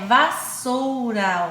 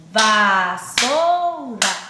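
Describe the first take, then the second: First: Said in the usual way. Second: "Vassoura" loud and very slow in stretched syllables. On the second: Shown as a demonstration. Teacher showing three sound groups, "Vassoura" syllable by syllable. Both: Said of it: "três grupos de sons".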